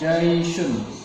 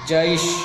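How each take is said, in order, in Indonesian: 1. Kata itu berakhir dengan akhiran -un yang utuh. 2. Kata itu berhenti begitu saja tanpa akhiran -un.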